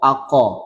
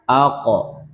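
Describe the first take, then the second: First: The consonant is followed by a full vowel. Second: The consonant ends with a faint, weak vowel echo. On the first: The speaker calls it wrong. "kita tidak mengucapkannya ako ... dia fathah, fathah yang sempurna" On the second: The speaker calls it right. "pantulan suara pada huruf sukun, lemah harokatnya"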